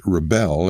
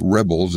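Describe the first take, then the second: First: "rebel" stressed on the second syllable, re-BEL; verb stress. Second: "rebels" stressed on the first syllable, REB-els; noun stress. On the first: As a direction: land the weight on BEL in "rebel". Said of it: "as a verb". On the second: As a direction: hit REB at the front of "rebels". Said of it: "as a noun". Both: Shown as a demonstration.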